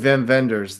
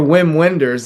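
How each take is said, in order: First: The name gets its original pronunciation. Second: The name gets its common pronunciation. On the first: The speaker calls it right. "the German director" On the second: The speaker calls it wrong. "as everybody mispronounces"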